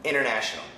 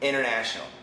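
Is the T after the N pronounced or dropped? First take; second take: dropped; dropped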